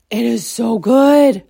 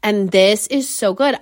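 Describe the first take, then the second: First: "so good" stretched slow and louder; drawn-out emphasis. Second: Said in the usual way. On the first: Shown as a demonstration. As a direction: savor every word of "It is so good". Raving about the breakfast.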